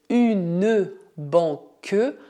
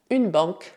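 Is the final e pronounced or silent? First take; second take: pronounced; silent. First: The final e is pronounced aloud. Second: The final e is silent. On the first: The speaker calls it wrong. "Não dizemos" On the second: The speaker calls it right.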